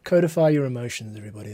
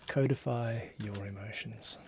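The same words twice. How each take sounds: First: Hammed-up public advice; mock proclamation. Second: Said in the usual way. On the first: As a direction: announce it like a grand motto. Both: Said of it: "That's, that's my advice".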